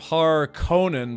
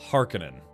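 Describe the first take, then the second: First: The ending is pronounced like 'Conan'. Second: The ending is not pronounced like 'Conan'.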